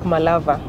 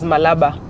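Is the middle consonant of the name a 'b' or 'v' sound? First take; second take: v; b. First: The middle consonant is a v sound. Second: The middle consonant is a b sound. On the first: This is how most people in the region say it. "they pronounce it as a V. So it sounds like Malava" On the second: This follows how the name is written. "it's written as Malaba"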